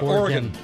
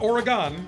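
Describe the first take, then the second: First: It is said with the local regional pronunciation. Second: It is said with an East Coast pronunciation. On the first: The speaker sounds like a local. The speaker calls it right. "So Oregon is the correct pronunciation" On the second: The speaker is not from the region. The speaker calls it wrong. "Not Oregon"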